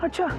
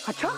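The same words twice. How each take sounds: First: It is said flatly, like a statement. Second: It is said with exclamatory excitement.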